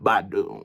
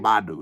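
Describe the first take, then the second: First: The name is dragged out slowly and affectedly. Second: The name is said quickly and plainly. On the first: "talking in that voice where they dragging it" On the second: "They don't just say [name]"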